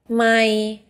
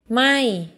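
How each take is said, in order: First: The pitch stays level in the middle range. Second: The pitch starts high and falls. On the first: It means mile. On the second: It means not or burning.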